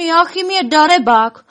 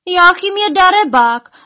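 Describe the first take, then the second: First: High, loud indignant wail; louder lament. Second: High, loud accusing wail; loud lament. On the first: Elves blaming the hiding dragon, loud lament. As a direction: raise the complaint into a loud wail. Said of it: "naříkat ještě hlasitěji". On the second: Elves accusing the dragon, wailing loudly. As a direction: wail the complaint out, pitched way up. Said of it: "naříkali tak nahlas". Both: A narrator's reading.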